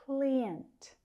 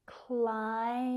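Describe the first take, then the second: First: "client" said as KLEE-ent; an ee vowel in "client", klee-ent; students' mispronunciation. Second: "Client" split slowly as KLAI... ent; long eye vowel in "Client", pause before ent; careful vowels. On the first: Teacher copying students' common mistake, "client" as KLEE-ent. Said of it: "A lot of my students say". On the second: Teacher correcting students, "Client" drawn out as KLAI-ent. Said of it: "Need to be careful with these vowels". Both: Shown as a demonstration.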